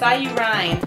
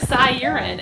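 First: The name ends sounding like you plus Rhine. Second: The name ends sounding like the word urine. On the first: The speaker calls it right. "but it's Cy U Rhine" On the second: The speaker calls it wrong. "It looks like Cy Urine, and I guess that's how we always say it"

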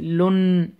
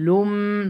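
First: A separate n sound is pronounced. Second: The n merges into a held nasal m. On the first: The speaker calls it wrong. "don't say لون" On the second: The speaker calls it right. "You need to pronounce it with nasal sound"

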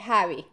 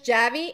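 First: The name is pronounced the Spanish way. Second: The name is pronounced the English way. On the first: "and in Spanish" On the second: "Maybe in English"

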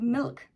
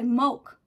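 First: The word is said with a neutral vowel. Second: The word is said with a New Zealand vowel. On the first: "instead of milk" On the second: "the Kiwi way of speaking is all like, we say milk"

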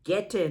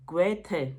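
First: The name is said as ge-te, two syllables. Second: The name is said as go-ye-the, three syllables. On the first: The speaker calls it wrong. "গেটে নয়" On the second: The speaker calls it right.

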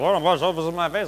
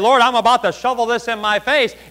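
First: It is said very quietly. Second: It is said at normal volume.

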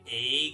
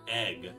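First: The word is said in an upstate New York accent. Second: The word is said in a standard American accent. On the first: "I say egg" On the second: "instead of egg"

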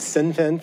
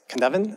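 First: The word begins with an S sound. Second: The word begins with a K sound. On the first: The speaker calls it wrong. "I had been saying Sinfin for years" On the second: The speaker calls it right. "actually it's Kinevan, actually is how you pronounce it"

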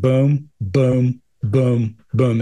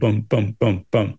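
First: The words have long gaps between them. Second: The words have short gaps between them.

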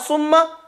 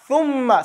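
First: It begins with an 's' sound. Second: It begins with a 'th' sound. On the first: The speaker calls it wrong. "that's your tongue is behind your two buck teeth" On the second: The speaker calls it right. "But if you stick your tongue out"

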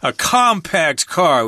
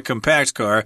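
First: Compact uses the changed pronunciation used for cars. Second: Compact uses the ordinary adjective pronunciation. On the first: The speaker calls it right. "we changed the pronunciation there" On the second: The speaker calls it wrong. "We wouldn't say a compact car, even though I guess that's correct, but nobody says it that way"

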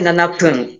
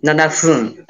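First: The second word begins with a p sound. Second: The second word begins with an f sound. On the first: The speaker calls it wrong. "we don't say nana pun" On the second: The speaker calls it right.

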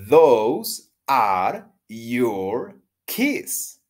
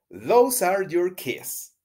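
First: It is said at a normal, careful pace. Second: It is said quickly, at a fast pace.

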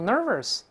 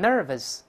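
First: The second syllable is r-coloured, like 'ver'. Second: The second syllable is a plain 'v' plus neutral vowel. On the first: The speaker calls it wrong. "不要读nervous" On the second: The speaker calls it right. "不是ver"

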